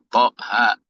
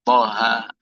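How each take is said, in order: First: The word is pressed and cut off with a catch. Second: The word ends on a soft, open vowel. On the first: The speaker calls it wrong. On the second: The speaker calls it right.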